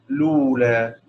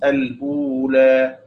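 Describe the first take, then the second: First: It starts directly with l and has no initial vowel. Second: It starts al- with a glottal stop before u. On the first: "بحذف همزة الوصل لولا" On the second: "الوجه الأول مثل حفص"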